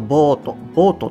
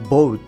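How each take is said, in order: First: It is said with Japanese-style katakana pronunciation. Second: It is said with English pronunciation. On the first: It sounds like the past tense of buy. The speaker calls it wrong. "日本語だとボートって言っちゃいますけどね" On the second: It means a ship or vessel. The speaker calls it right. "ボートになります"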